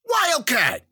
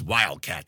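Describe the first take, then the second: First: High, loud shout; yelled name. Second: Said in the usual way. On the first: A narrator's reading. Narrator calling to Wildcat in the brawl, yelling. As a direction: holler the name across the room. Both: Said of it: "I yelled".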